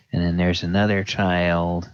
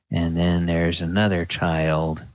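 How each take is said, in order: Both takes have the same delivery.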